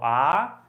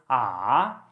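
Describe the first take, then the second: First: The pitch rises like a question. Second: The pitch goes down then back up. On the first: "I call it a rising tone. ... question intonation tone" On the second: "it goes down and then goes up"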